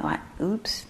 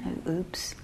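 First: Whispered oops with a rise; hushed rising oops. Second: Breathy little whispered oops; soft whispered oops. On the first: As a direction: let oops float up in a whisper. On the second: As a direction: whisper it like a tiny slip. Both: Shown as a demonstration.

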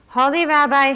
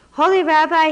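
First: High, loud wail to the rabbi; poor man wailing for the rabbi. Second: High, loud desperate cry to the rabbi; poor man crying out for help. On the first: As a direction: wail out his name in despair. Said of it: "he wailed". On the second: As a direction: call out to him in distress. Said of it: "he cried". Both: A narrator's reading.

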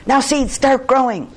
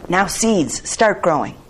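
First: High, loud storybook shout; louder, higher, insistent command. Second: A raised, firm command; raised voice, ordering; said loudly. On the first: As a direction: shout the order at the top of a character voice. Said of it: "close to the ground and shouted". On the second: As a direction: call it out loudly, short of a shout. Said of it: "said loudly". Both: A narrator's reading.

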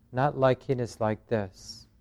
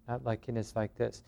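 First: Gentle noting. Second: Much softer, almost to yourself; quietly repeating "Not liking is like this". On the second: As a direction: let the noting fade to a murmur. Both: Shown as a demonstration. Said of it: "then to notice the resistance".

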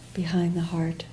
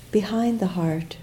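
The two takes are said the same way.

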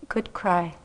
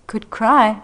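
First: Soft, low good cry; a tender little benediction; sweet and gentle. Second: Good cry repeated through a laugh, louder; laughing echo. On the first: Teacher comforting a weeping student, softly tender. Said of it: "with the sweetest voice". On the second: Student repeating her teacher's words, laughing in relief. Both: Retold or imitated.

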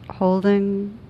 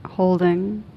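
Both takes have the same delivery.

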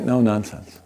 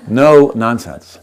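First: Said in the usual way. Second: "No nonsense" slow and louder, each word punched; emphatic. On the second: Shown as a demonstration. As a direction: lean hard on "No nonsense". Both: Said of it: "pow, you know".

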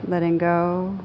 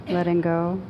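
No difference in how they are said.

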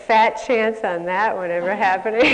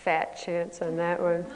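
First: Louder, laughing take on the cynical inner voice. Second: A hint of a dry, cynical inner voice. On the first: Retold or imitated. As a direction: scoff through a laugh like the cynical voice. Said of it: "this voice would say". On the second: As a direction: toss it off like a sceptical little voice. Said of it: "this little voice would say".

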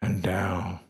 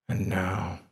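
Both takes have the same delivery.

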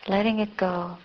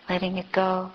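The two takes are said the same way.

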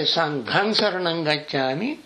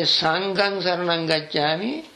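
First: "Sanghang" with a breathy gh, aspirated; aspirated correct version. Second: "Sanghang" with a plain g, no breath after it; unaspirated wrong version. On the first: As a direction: say "Sanghang" as sanghang with a puff of breath after the g. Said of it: "you go to the community of Sanghas". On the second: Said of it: "you go to refuge in the cloth". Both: Shown as a demonstration.

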